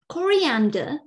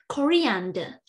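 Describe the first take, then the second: First: It is said in a British English accent. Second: It is said in a British English accent.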